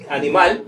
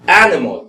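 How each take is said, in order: First: Animal said as in Spanish, stressed on the last syllable; Spanish animal, clear vowels, rising end; end-stressed Spanish version of animal; Spanish pronunciation. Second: Animal in English, stressed on the first syllable; louder English animal, falling away after the first syllable; front-stressed animal with weakened later vowels; English pronunciation. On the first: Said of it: "en español es". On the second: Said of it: "pero se dice animal". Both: Shown as a demonstration.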